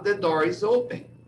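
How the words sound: It is said with a Brazilian accent. The speaker calls it wrong. "O brasileiro vai falar"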